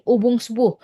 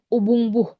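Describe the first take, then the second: First: An s sound links the two parts. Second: No s sound links the two parts.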